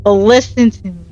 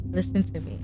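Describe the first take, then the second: First: Said in the usual way. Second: Listen to me dropped almost to a murmur; soft urgent plea to the viewer; much softer. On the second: Shown as a demonstration. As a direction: pull it right down, soft and close.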